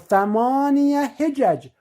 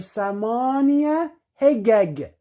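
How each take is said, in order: First: It is said with a J sound. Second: It is said with a hard G sound.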